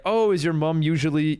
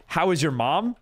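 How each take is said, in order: First: "mom" said as "mum" with a short u; British mum. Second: "mom" with the open "ah" vowel; American mom. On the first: Replying when chat says mum, British mum. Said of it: "then I'll be like". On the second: Asking a viewer about their mother, American mom. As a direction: say "mom" the American way, rhymes with "calm". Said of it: "I'm like". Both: Shown as a demonstration.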